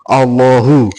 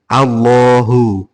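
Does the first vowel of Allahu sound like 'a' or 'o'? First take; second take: o; a. First: The first vowel is a rounded 'o' sound. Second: The first vowel is an open 'a' sound. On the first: The speaker calls it wrong. "bukan ... kebanyakan kan pakai O" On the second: The speaker calls it right. "Padahal sebenarnya A"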